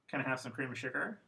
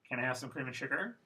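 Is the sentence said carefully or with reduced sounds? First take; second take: reduced; reduced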